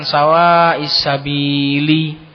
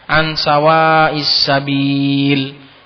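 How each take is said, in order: First: The last word ends with an added i sound. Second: The last word ends cleanly on the l sound. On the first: The ending is sounded although the reader stops. The speaker calls it wrong. "Gak ada dalam Al-Quran ... Salah" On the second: The reader stops at the end of the verse. The speaker calls it right. "Kalau selain nasob kan disukunkan"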